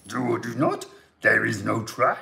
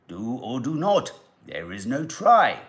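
First: It is said in a Fozzie Bear-like voice. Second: It is said in an Obi-Wan-like voice.

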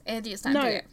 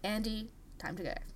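First: There is no pause after the name. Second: There is a pause after the name. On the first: The speaker calls it right. "There wasn't even a pause" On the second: The speaker calls it wrong. "I paused there"

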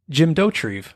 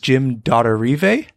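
First: The name is said with a plain English sound. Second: The name is said with a fancy French-like sound. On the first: The speaker calls it right. "he pronounces it Jim Dottorive" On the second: The speaker calls it wrong. "I thought it was like French or something"

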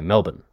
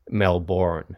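First: It is said with an Australian pronunciation. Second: It is said with an American pronunciation. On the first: "whereas we say Melbourne" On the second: "we tease Americans when they say Melbourne"

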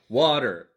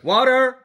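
First: Only one syllable carries the stress. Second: Both syllables are stressed equally.

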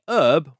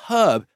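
First: It is said with a silent h, American-style. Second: It is said with the h pronounced, British-style.

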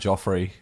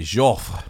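First: The name is pronounced with an English accent. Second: The name is pronounced with a French accent. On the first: "I think our Anglicisation again" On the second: "I think the French would say Joffre"

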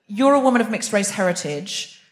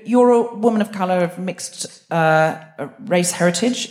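First: It is said smoothly and confidently. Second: It is said hesitantly, with pauses.

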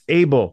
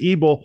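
First: The name sounds like biblical Abel. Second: The name does not sound like biblical Abel. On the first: This is how the family actually says the name. The speaker calls it right. "but it's Abel, like Cain and Abel" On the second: This is the common but mistaken reading of the name. The speaker calls it wrong. "Most people would pronounce it Abel"

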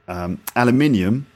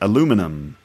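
First: It is said with a British pronunciation. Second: It is said with an American pronunciation.

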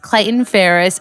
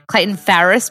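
First: The name is said without Australian pronunciation. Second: The name is said with Australian pronunciation. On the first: The speaker calls it right. "but it is Clayton Farris" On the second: The speaker calls it wrong. "because Aussies would say it that way"

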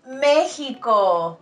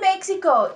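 First: The middle consonant is a throaty h sound. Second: The middle consonant sounds like ks. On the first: The speaker calls it right. "it's México" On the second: The speaker calls it wrong. "Don't say Mexico"

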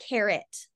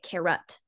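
First: The second vowel is a short 'ih' sound. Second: The second vowel is a neutral schwa sound. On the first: This is how the local children say it. "my kids say it carrot with like an it sound" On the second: This is the textbook schwa pronunciation. "but I don't say it carrot. That sounds weird"

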